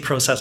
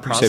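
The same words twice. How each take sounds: First: The word is said the Canadian way. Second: The word is said the American way. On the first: "we say process" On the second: "not process"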